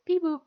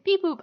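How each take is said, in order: First: Said in the usual way. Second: High, loud robotic beep boop. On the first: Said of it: "I love how he says". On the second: Retold or imitated. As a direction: chirp it like a little robot. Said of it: "I love how he says beep boop".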